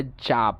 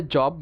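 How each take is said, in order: First: American জাব (job) as JAHB; American pronunciation. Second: British জব with rounded O; British pronunciation. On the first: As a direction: open AH in জাব. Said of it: "আমেরিকানরা বলে". (জাব-এ আ, American উচ্চারণ) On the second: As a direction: say জব as JAWB. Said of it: "ব্রিটিশরা বলে". (জব-এ অ, British উচ্চারণ) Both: Shown as a demonstration.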